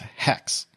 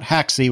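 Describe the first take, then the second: First: It is said as one syllable, like hex. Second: It is said as two syllables, like haxy. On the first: The speaker calls it right. "apparently the correct pronunciation for that" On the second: The speaker calls it wrong. "Not haxy"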